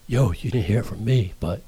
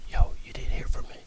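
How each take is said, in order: First: Hushed gossip whisper; secretive low whisper; dropped voice. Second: Whispered secret gossip; conspiratorial whisper. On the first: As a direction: drop the volume right down. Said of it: "you drop twenty decibels off your voice". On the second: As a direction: lean in and whisper it. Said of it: "now you whispering". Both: Shown as a demonstration.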